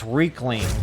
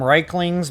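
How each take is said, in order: First: The first syllable sounds like the word 'reek'. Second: The first syllable does not sound like 'reek'. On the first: The speaker calls it right. "I think it's Reekling, like they, they stink" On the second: The speaker calls it wrong. "that's the way I was pronouncing it"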